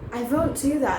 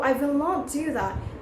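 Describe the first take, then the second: First: The negative is contracted to one syllable. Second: The negative is said as two full words. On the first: The speaker calls it right. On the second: The speaker calls it wrong.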